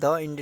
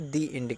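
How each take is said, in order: First: 'The' is said with a short 'uh' vowel. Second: 'The' is said with a long 'ee' vowel. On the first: The speaker calls it wrong. "द end नहीं कहते" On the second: The speaker calls it right. "दी end कहते हैं"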